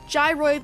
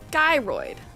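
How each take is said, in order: First: The word begins with a soft J sound. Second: The word begins with a hard G sound. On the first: "like gyroscope" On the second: "Pronounce with a hard G like in guy"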